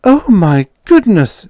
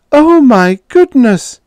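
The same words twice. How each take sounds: First: Higher, louder, slow shocked shriek; shocked scream. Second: Much higher, much louder, drawn-out shriek; shrieking louder still. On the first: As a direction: squeal in shock at the naked Martian. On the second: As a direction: let it peak into a full scandalized shriek. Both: A narrator's reading. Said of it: "screamed Edith".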